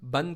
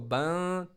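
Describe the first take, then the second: First: The n is fully pronounced with the tongue. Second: The n is hidden and sounds through the nose.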